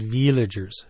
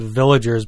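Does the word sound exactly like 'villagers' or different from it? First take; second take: different; like villagers. First: It sounds different from the everyday word villagers. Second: It sounds like the everyday word villagers. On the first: The speaker calls it right. "but they're called villagers" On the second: The speaker calls it wrong. "We want to pronounce it villagers"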